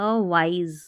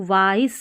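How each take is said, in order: First: "वाइज" ending in a voiced z. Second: "वाइज" ending in a hissed s; wrong S ending. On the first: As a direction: say "वाइज" as wize. ("वाइज" के अंत में ज़) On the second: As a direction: say "वाइज" as vice. ("वाइज" के अंत में स) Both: Shown as a demonstration. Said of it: "नहीं पढ़ेंगे".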